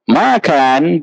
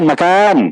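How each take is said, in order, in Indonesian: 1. Vokal pertama panjang. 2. Vokal kedua panjang. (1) "dulu panjang" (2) "Ma pendek, kan panjang"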